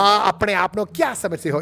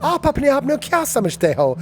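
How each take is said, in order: First: Lightly dramatic British Desi delivery; British Desi accent. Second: High, dramatic filmi delivery of "आप अपने आप को क्या समझते हो"; hammed-up film hero line; Bollywood hero. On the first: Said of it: "my British version". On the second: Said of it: "It's like Lagan". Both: Shown as a demonstration.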